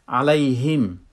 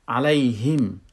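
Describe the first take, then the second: Both takes have the same delivery.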